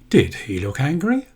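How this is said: It is said like a real question. The speaker really wants an answer. "if I say that in a different way, it does form as a question"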